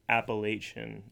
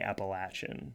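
First: It uses the pronunciation outsiders to the region use. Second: It uses the pronunciation locals in the region use. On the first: The speaker is not from the region. The speaker calls it wrong. "tells people that you are an outsider" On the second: The speaker is from the region. The speaker calls it right. "we say Appalachian"

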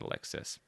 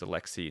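First: The name ends with an S sound. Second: The name ends without an S sound. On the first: The speaker calls it wrong. "not Alexis" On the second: The speaker calls it right. "you don't say the S"

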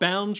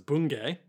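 First: The name ends without an 'ay' vowel. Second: The name ends with an 'ay' vowel. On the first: The speaker calls it wrong. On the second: The speaker calls it right.

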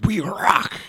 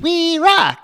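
First: The voice is rough and gravelly. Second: The voice is thin and high-pitched. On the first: "you hear the gravel in his voice" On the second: "he's got that high pitch"

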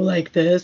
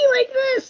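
First: The voice is low and rough. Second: The voice is high and squeaky.

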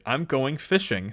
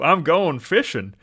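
First: It is said without a southern accent. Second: It is said with a southern accent.

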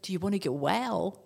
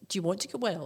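First: It sounds warm, like an offer. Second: It sounds disdainful and dismissive.

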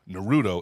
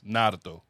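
First: The accent falls later in the word. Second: The accent falls early in the word.

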